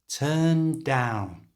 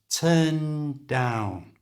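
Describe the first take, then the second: First: The N flows into the D like one word. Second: The two words are said as separate words.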